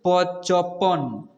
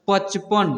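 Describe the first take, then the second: First: पचपन slow, its sounds held apart; broken into syllables. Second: Said in the usual way. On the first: Shown as a demonstration. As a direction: sound out पचपन slowly in separate parts. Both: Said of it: "ऐसे पढ़ना है".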